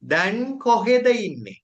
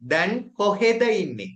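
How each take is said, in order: First: The two words are said separately and fully. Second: The two words are said separately and fully.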